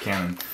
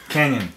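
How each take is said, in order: First: The word is said in a plain, ordinary way. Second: The word is said in a fancy, stylized way. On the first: The speaker calls it wrong. "not Canon" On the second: The speaker calls it right. "You're supposed to pronounce it the cool way"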